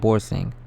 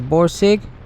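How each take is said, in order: First: The name ends with an ng sound. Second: The name ends with a plain g sound. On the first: The speaker calls it wrong. "and not Borsing" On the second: The speaker calls it right. "notice how I said Borsig"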